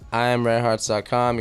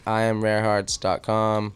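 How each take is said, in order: First: It is said at normal speed. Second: It is said more slowly.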